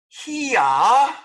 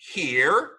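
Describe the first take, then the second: First: The final R sound is dropped. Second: The final R sound is clearly pronounced. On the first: The speaker calls it wrong. "This is not hia" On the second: The speaker calls it right.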